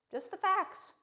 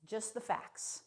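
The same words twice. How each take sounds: First: Much higher, rising on "facts"; higher take. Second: Flat and much softer; quiet take. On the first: Second take of the motto, pitched up with a rise. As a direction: lift "facts" up in a bright rise. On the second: First take of the motto, softer and matter-of-fact. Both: Shown as a demonstration.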